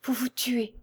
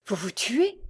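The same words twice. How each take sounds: First: Soft, higher and falling, barely distinct; small, faint voice of dismay. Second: Higher, rising disbelief; shocked question. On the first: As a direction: repeat it weakly, as if the voice has failed. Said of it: "mais d'une voix si faible qu'elle était à peine distincte". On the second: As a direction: ask it aghast, pitch lifting at the end. Shocked question at suicide announcement. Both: A narrator's reading.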